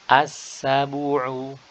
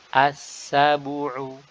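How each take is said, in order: The two takes are said the same way.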